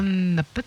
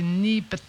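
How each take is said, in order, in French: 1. Le premier mot a une voyelle proche de 'eh'. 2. Le premier mot a une voyelle proche de 'ee'. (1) "Pas ne pet" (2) "c'est ni pet"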